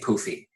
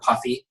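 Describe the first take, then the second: First: The first vowel sounds like the one in 'food'. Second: The first vowel sounds like the one in 'cup'. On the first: This is how the speaker personally says it. "I say poofy" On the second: This is how other people say it. "you know how people say the word puffy?"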